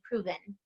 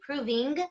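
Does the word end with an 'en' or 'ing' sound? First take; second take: en; ing. First: The ending is a relaxed, reduced 'en'. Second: The ending is a full, crisp 'ing'. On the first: It follows looser, more soulful diction. The speaker calls it right. "you don't need to be so precise, and you'll say proven" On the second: It follows precise classical diction. The speaker calls it wrong. "in legit musical theater, it would say proving, ing"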